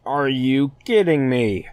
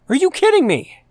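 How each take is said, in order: First: Drawn-out, incredulous are you kidding me, stress on kidding; slow disbelief. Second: High, loud cry of disbelief with a hard stress on kidding; outraged yell. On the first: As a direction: let "kidding" sink in slowly, in disbelief. Exasperated at the ship finale. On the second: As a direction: yell "kidding" at the top of your voice. Ranting about the ship finale. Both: Real, not acted.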